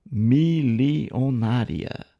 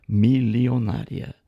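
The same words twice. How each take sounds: First: MILIONÁRIA stretched very slowly, syllable by syllable; drawn-out emphasis. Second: MILIONÁRIA said slowly and evenly as one word; deliberate repeat. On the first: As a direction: pull "milionária" apart, mi-li-o-nária. Drawn-out emphasis on a criticised word. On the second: Lecturer driving home criticism of a church, repeating "milionária" slowly and deliberately. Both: Real, not acted.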